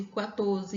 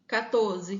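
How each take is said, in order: First: "quatorze" said kwatorze, with a kw glide; "quatorze" with the w sound after k. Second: "quatorze" said katorze, plain k sound; "quatorze" with a hard k, no w glide; quatorze without the w. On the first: Teacher reading out variants: "quatorze" said kwatorze. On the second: Teacher reading out variants: "quatorze" said katorze. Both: Shown as a demonstration. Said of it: "uma dessas duas formas".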